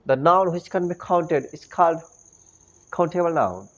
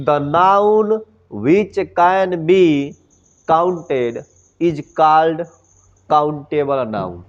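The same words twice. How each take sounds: First: It is read in a polished English-style accent. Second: It is read in a plain Bhojpuri-style accent. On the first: The speaker calls it wrong. "न कि ऐसे पढ़ेंगे" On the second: The speaker calls it right. "हम लोग एकदम एकदम भोजपुरी में पढ़ेंगे"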